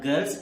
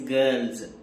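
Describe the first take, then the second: First: The word ends in a hissing s sound. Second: The word ends in a buzzing z sound. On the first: The speaker calls it wrong. "it is not girls" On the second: The speaker calls it right. "it is girls"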